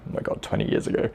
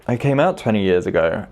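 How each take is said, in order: First: Fast breathy whisper to himself; quick private whisper of amazement; whispered aside. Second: Said in the usual way. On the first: Real, not acted. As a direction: whisper it in disbelief. Disbelief at how long ago.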